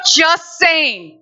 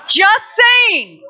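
First: Said in the usual way. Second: High, loud teasing jab; playful shout. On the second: Real, not acted. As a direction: call it out cheekily, half laughing.

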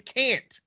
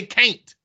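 First: "can't" with the short a of "cat"; standard pronunciation. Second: "can't" as "cain't", rhyming with paint; Southern pronunciation. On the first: Correcting the co-host, "can't" with short a. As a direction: say "can't" with no glide in the vowel. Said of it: "The word is can't". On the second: Showing how the South says it, "can't" as "cain't". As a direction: glide the vowel in "can't" to "cain't". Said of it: "In the South, we say can't". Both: Shown as a demonstration.

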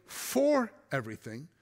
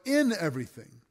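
First: "for" set apart and raised against "everything"; stress on FOR. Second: "in" picked out as the word that counts; stress on IN. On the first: Preacher rules out a misreading of the verse, stressing "for". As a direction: lean hard on "for", drawing it out. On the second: Preacher corrects the misreading of the verse, stressing "in". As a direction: punch "in", then let "everything" fall away. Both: Shown as a demonstration. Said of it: "not necessarily for everything".

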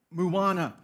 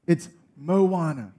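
First: Moana said wrong, like Marijuana's start; wrong pronunciation. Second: Moana said slowly, moh-AH-nah; correct pronunciation. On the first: Wife correcting the husband, quoting the wrong Moana. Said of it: "it's not". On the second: Wife correcting the husband, a slow correct Moana. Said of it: "Chris, it's not". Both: Retold or imitated.

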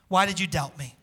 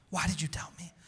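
First: Said in the usual way. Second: Hushed whispered repeat of the question. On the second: Acted. Pastor voicing Jesus whispering the question to Peter. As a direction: breathe it out as a tender whisper.

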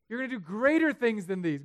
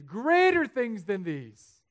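First: Greater punched loud and high; emphatic repeat of greater; stress on greater. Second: Greater things than these, very slow and loud; drawn-out emphatic greater; slow emphatic repeat. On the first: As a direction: hit the word greater hard. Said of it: "repeated for emphasis". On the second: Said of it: "repeated slower for emphasis". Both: Real, not acted.

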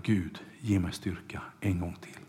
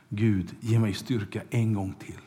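First: An unvoiced, pleading whisper; whispered prayer. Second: Said in the usual way. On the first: Samson begging God for strength one last time, whispered. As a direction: breathe the plea to God, barely voiced.

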